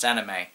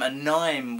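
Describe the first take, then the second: First: The ending does not rhyme with mime. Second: The ending rhymes with the word mime. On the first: The speaker calls it right. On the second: The speaker calls it wrong.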